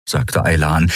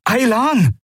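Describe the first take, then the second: First: Said in the usual way. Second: High urgent call of the name Aylan. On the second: A narrator's reading. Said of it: "rief Kai".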